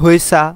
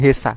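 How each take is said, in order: First: The first syllable has a rounded 'hwe' sound. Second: The first syllable has a plain 'he' sound. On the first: "অনেকে বলে থাকেন হয়েসা" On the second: "অনেকে বলে থাকেন হেসা"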